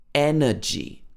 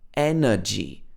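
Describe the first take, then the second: The two takes are said the same way.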